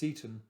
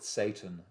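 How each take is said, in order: First: The first vowel sounds like 'see'. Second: The first vowel sounds like 'say'. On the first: "Sometimes S E Y T O N is pronounced Seaton" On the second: "I'm going to go with Satan as the um, as the pronunciation of it"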